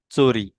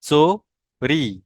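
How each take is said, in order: First: चोरी said as chori, with a ch sound at the start; a short, quick चोरी, cho-ri; Hindi pronunciation. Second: चोरी said as tsori, with a ts sound at the start; slow, drawn-out Marathi चोरी, tso-ri; Marathi pronunciation. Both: Shown as a demonstration. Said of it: "लेकिन ये मराठी में चोर बोलेंगे".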